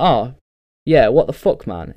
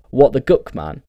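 First: Said in the usual way. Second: "guck" said as a plain swapped word, hard g then "uck"; autocorrected word. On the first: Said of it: "you're typing away and you're like". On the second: Retold or imitated. Phone autocorrect replacing the swear word, "guck" with a hard g. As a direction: say "guck" with a hard g where "fuck" should be. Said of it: "And it's like".

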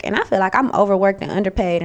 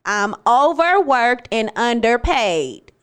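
First: Said in the usual way. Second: "I'm overworked and underpaid" said slowly, each word weighted; deliberate slow emphasis. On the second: Real, not acted. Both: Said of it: "for my fucking boss that's listening".

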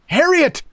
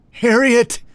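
First: Very high-pitched shout. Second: High, strained wheezy call; wheezing shout. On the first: Narrator shouting to Harriet in the lighthouse, high urgent shout. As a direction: cry the name out across a distance. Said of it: "I shouted". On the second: Exhausted narrator shouting to Harriet, high wheezing shout. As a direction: shout the name while short of breath. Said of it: "this time wheezing". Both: A narrator's reading.

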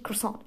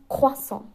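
First: Croissant as a clipped English-style "kossong" with no w sound; wrong Croissant. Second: Croissant said the French way as "kwassong", with a clear w; right Croissant. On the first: Explaining the wrong take to listeners, a clipped "kossong". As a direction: say Croissant the way the Spider-Man cast do. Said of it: "Es heißt nicht Croissant". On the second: Correcting the pronunciation for listeners, a careful French "kwassong". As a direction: give Croissant its proper French "kwa" start. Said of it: "es heißt Croissant". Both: Shown as a demonstration.

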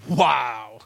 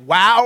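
First: Low, drawn-out dubious wow; acted wary, deadpan wow; unimpressed wow. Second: Loud, amazed wow; acted punchy amazement; impressed wow. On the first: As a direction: react as if put off. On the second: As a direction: react as if truly blown away. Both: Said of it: "you don't know if they're like".

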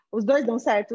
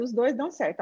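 First: "Os dois dão certo?" with a rising, questioning tune and a slightly louder "dois"; rhetorical question. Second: "Os dois dão certo." answered with a settled falling tune on "certo". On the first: Voicing the parents' doubt before answering it, rising question. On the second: Answering her own rhetorical question for the parents, firm falling statement. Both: Shown as a demonstration.

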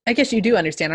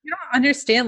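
First: Said in the usual way. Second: A higher, louder, insistent "You don't understand"; odd emphatic delivery. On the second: Pretend. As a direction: press "understand" as if scolding. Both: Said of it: "I don't know why I'm saying it like that".

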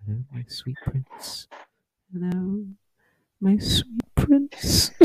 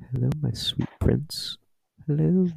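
First: Hushed, creepy whisper, rising higher at the end. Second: Breathy creepy whisper into the ear. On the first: Noah leaning over whispering to [name], creepy and hushed. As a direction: purr it strangely in his ear, slowly. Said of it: "in a very strange way and just go". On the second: Friend Noah leaning in to whisper to him, creepy. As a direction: lean in and purr it creepily. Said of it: "lean over to me and go". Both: Retold or imitated.

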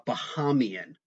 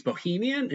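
First: Bahamian as bah-HAY-mee-an, like the islands; Bahamian said carefully. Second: Bohemian as boh-HEE-mee-an, not Bahamian; Bohemian, the misheard word. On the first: Shown as a demonstration. The host trying to get the island word right, careful Bahamian. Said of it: "maybe I'm not gonna pronounce it right". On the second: Retold or imitated. Seth Rogen mishearing the pitch as Bohemian. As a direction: swap in Bohemian, said as the mix-up. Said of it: "Seth Rogen thinks Bohemian".

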